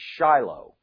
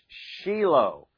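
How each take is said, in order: First: The name is pronounced the usual English way. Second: The name is pronounced the Hebrew way. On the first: The speaker calls it wrong. "notice I didn't say Shiloh" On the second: The speaker calls it right. "the correct Hebrew pronunciation is Shiloh"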